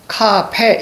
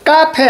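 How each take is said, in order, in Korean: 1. 첫 자음은 거센소리고 된소리가 아니에요. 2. 첫 자음은 된소리고 거센소리가 아니에요. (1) "이게 맞아요" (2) "아니에요. 된 소리 쓰지 않습니다"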